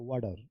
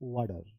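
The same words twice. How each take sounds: The two takes are said the same way.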